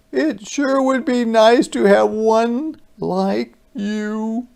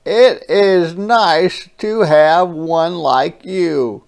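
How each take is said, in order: First: High, wistful monster voice; wistful creature. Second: Tender brother. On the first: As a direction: say it longingly. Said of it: "looked at me odd, kind of sad". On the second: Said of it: "a smile that was new". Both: Acted.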